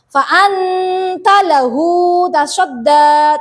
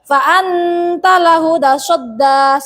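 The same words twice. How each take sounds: First: The vowel in 'lahu' is held for two counts. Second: The vowel in 'lahu' is not lengthened at all. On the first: The speaker calls it right. "Panjang tapi terpendek, yaitu dua harokat" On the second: The speaker calls it wrong. "Atau bahkan tidak panjang. ... salah juga"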